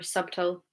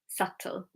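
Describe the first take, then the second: First: A B sound is heard in the middle. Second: No B sound is heard in the middle. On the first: The speaker calls it wrong. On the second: The speaker calls it right. "No B sound"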